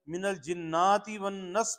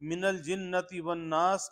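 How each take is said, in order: First: The vowel in jinnati is long, nas short. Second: The vowel in nas is long, jinnati short. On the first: The speaker calls it wrong. "यहाँ का अलिफ वहां जा लगाया" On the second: The speaker calls it right. "वन नास में जो अलिफ है"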